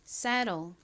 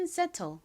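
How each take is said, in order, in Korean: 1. 미국식 억양으로 발음되었습니다. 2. 한국식 억양으로 발음되었습니다. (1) "미국식 원어 발음으로는" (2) "한국식으로는"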